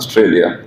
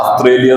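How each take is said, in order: First: The first vowel sounds like 'o'. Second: The first vowel sounds like 'a'. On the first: The speaker calls it right. "ശരിക്കുള്ള pronunciation ഓസ്ട്രേലിയ എന്നാണ്" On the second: The speaker calls it wrong. "ചിലർ ആസ്ട്രേലിയ എന്ന് എഴുതും"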